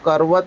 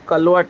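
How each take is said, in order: First: The middle consonant is an R sound. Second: The middle consonant is an L sound. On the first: This is the standard Hindi pronunciation. The speaker calls it right. "वो करवत है" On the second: This is the Sindhi-influenced pronunciation. The speaker calls it wrong. "Sindhi में कई हिंदी शब्दों का उच्चारण अलग तरीके से आता है"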